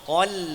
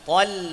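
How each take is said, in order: First: The L sound is thin and light. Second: The same.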